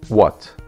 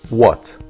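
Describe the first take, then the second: The two takes are said the same way.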